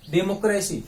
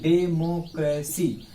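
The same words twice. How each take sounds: First: Said in the usual way. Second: democracy slow, as डे, मो, क्रे, सी; syllable by syllable. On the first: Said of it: "democracy में कितने syllable बने". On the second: Shown as a demonstration. Teacher asks what it is, answers syllable by syllable. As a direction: give each of डेमोक्रेसी's four parts its own beat. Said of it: "इसको थोड़ा आप खंडित करिए".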